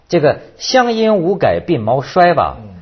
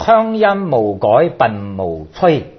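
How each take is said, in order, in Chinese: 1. 这句用普通话读。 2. 这句用粤语读。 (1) "这个都不押韵" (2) "但是你用广东话一念"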